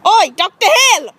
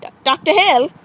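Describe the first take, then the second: First: High, loud attention-getting call; sharp, raised call. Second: Said in the usual way. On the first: Acted. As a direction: shout to get the doctor's attention. Calling the unresponsive doctor.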